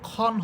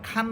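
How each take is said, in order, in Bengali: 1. গাঢ় ও গোলাকার শোনায়, 'o'-এর মতো। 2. খোলা ও উজ্জ্বল শোনায়, 'a'-এর মতো। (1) "এখানে খ দুই জবর খন হবে" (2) "আকার দিয়ে পড়তে পারবো না। খা খ দুই জবর খান বলা যাবে না"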